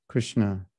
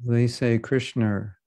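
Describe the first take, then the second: First: Krishna with an added t, lower and softer; wrong Krishna. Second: Krishna with a short flat i, slowly; Krishna the wrong way. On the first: Retold or imitated. Teacher showing the shared wrong Krishna. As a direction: say Krishna as kʰɹɪstnə. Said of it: "the same wrong way". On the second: Shown as a demonstration. Teacher imitating how devotees mispronounce Krishna. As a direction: drawl Krishna as Spanish speakers do.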